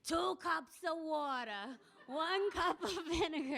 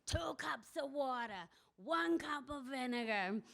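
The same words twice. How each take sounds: First: Slow, higher, grander reading with a laugh breaking in; old woman rereading the recipe slow and high, grand; imperious reading again. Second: Slow, lightly grand reading aloud; slow mock-imperious old woman reading a recipe. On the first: Retold or imitated. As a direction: read it aloud slow and lofty, amused. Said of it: "started reading". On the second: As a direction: read the recipe like a proclamation, a touch slow. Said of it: "held up the magazine kind of imperiously and started reading".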